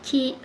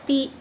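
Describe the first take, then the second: First: The syllable begins with a ch sound. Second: The syllable begins with a plain t sound. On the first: The speaker calls it right. "tapi ta, ci" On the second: The speaker calls it wrong. "Jadi bukan ta, ti"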